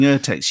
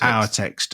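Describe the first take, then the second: First: The first syllable sounds like 'er'. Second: The first syllable sounds like 'our'. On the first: "if you've spent all your life saying urtext" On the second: "is pronounced someone like the uh, O U R"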